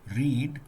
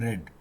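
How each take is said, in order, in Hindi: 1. स्वर लंबा है, जैसे 'need' में। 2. स्वर छोटा है, जैसे 'bed' में।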